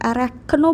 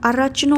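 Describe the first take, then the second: First: The middle consonant is a 'k' sound. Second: The middle consonant is a 'ch' sound. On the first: "अरैक्नो बोलने की ज़रूरत नहीं है" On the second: "अरचनो ही बोलना है"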